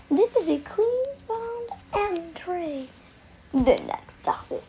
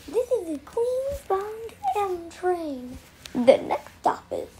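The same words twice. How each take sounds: The two takes are said the same way.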